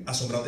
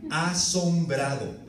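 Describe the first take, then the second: First: Said in the usual way. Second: "asombrado" drawn out very slowly and weighed; stressed slow. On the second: Shown as a demonstration. Preacher dwelling on the biblical word "asombrado", slow and stressed. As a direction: let "asombrado" land slow and heavy. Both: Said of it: "Esa es la palabra bíblica".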